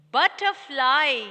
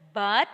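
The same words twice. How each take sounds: First: Said in the usual way. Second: "Butterfly" broken into But, ter, fly; long pause after each syllable of "Butterfly". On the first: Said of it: "try to say this word with the syllable sound". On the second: Shown as a demonstration. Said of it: "say this word with the syllable sound".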